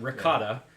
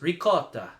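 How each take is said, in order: First: It is said with a general American accent. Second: It is said with an Italian accent. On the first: "There's the American way" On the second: "which is the the way the Italians would say it"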